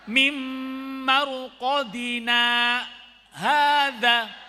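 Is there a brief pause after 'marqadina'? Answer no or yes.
yes. A brief stop without breath follows 'marqadina'. The speaker calls it right. "Berhenti sejenak tanpa bernafas"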